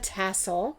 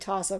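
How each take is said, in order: First: The word is said in its standard pronunciation. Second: The word is said in an inherited family pronunciation. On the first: This is how the word is actually said. The speaker calls it right. "but it's actually a tassel" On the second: This is how a relative used to say it. The speaker calls it wrong. "I say tassel because my grandmother did"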